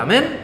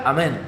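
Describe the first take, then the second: First: "Amén" as a question, pitch rising high at the end; questioning amen. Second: "Amén" as a reply, falling at the end; plain affirming "Amén", pitch settling down; answering amen. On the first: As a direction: ask "Amén" of a listener, seeking agreement. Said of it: "le pregunta". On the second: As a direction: confirm with a short, falling "Amén". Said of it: "el otro contesta". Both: Acted.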